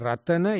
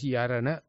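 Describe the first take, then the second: First: The word begins with an R sound. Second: The word begins with a Y sound.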